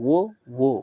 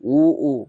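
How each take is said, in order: First: Each syllable starts with a w lip glide. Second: Each syllable starts with a glottal stop. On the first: The speaker calls it right. "অনেকটা বায়ের মতো হবে" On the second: The speaker calls it wrong. "যদি আমরা বলি উ উ তাহলে হামজা হয়ে যায়"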